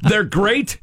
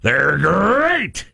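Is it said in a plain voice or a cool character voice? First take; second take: plain; cool character. First: It is said in a plain, ordinary voice. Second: It is said in a cool tiger voice.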